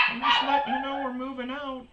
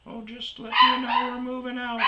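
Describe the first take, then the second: First: Mock old woman. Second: Put-on high, breezy old lady voice, far up; a high, airy old lady excuse; mock old lady. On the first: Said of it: "And she goes". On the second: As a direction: play the oblivious old woman chirping. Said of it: "this old chick".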